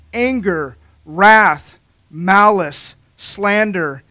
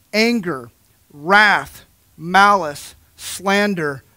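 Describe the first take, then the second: No difference in how they are said.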